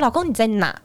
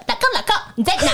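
First: Said in the usual way. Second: High-pitched, hammed-up call to husband; playful wifely call. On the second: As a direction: put on a playful high voice, half laughing. (夸张高音地喊老公) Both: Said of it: "哦，我应该说".

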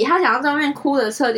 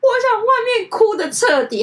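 First: Said in the usual way. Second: Much higher, louder, tearful voice on 我想外面哭得彻底; crying quote. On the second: Retold or imitated. Senior tells friend she wants to cry outside, sobbing. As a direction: sob out 我想外面哭得彻底 high and loud. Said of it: "她就哭着跟我说".

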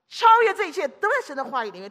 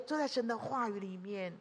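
First: Louder declaration, 在 stressed; proclaiming. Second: Quieter, falling repeat of 在神的话语里面; gentle echo of 都在神的话语里面; soft echo. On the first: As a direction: announce it boldly. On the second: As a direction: drop it to a hush. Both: Real, not acted.

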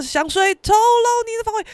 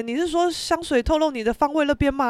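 First: High, chanted pop line; sung lyric. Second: Said in the usual way. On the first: Retold or imitated. Friend playing the song at karaoke, singing along. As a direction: sing the line pitched high. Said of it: "他就播[name]".

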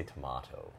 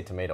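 First: "tomato" with a long AH in the middle; British tomato. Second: "tomato" with an AY in the middle; American tomato. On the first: Host contrasts two pronunciations, "tomato" said tuh-MAH-toe. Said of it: "I say tomato". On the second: Host contrasts two pronunciations, "tomato" said tuh-MAY-toe. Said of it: "you say tomato, I say tomato". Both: Shown as a demonstration.

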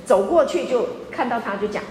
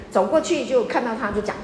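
Both takes have the same delivery.

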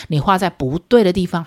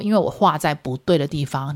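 First: 不对的 with 对 pushed louder; stress on 对. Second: Said in the usual way. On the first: Shown as a demonstration. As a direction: lean on 对 in 画在不对的地方. (重读“对”字)

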